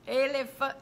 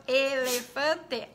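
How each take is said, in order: First: "Elefa-" stopped halfway at normal speed; a quick false start; cut-off start. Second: "elefante" very slow, each syllable separated: e-le-fan-te; slow clapping-syllables voice for children; syllables spelt out. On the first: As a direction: begin "Elefa-" and break off. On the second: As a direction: tap out "elefante" one syllable at a time. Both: Shown as a demonstration. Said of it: "número de sílabas".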